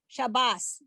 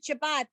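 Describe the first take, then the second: First: The word ends with an S sound. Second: The word ends with a T sound. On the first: This is the older Eastern European pronunciation. "that would be the S sound" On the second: This is the modern Israeli pronunciation. "we pronounce it Shabbat"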